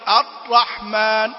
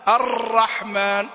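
First: The r is held tight with no trill. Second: The r has a light, brief trill.

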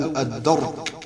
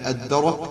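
First: The r is followed by an a vowel. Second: The r has no vowel after it. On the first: "وفتحها" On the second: "بإسكان الراء"

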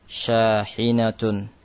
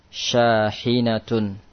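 The two takes are said the same way.

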